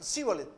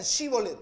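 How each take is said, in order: First: Sibolet with a plain s instead of sh; Sibolet, a mispronounced sh turned into s; wrong Sibolet. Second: Shibolet with a clear sh sound at the start; correct Shibolet. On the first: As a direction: say Sibolet the way the Ephraimites said it, with a hissed s. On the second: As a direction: Shibolet spoken the right way, starting with sh. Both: Shown as a demonstration. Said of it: "No decían Shibolet".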